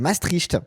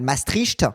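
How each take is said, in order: First: The name is said with its native pronunciation. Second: The name is said with a French pronunciation. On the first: The speaker calls it right. "c'est Maastricht. Ça se dit Maastricht" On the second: The speaker calls it wrong. "les Français, vous prononcez super mal"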